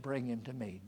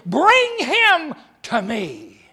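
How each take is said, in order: First: Soft, lower gentle command; quiet command. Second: Loud, very slow commanding call. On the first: Jesus retold softly to the congregation, quiet. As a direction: say it softly, with calm authority. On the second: Jesus commanding the crowd, loud and slow. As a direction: order it with full authority. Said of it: "And he commanded". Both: Acted.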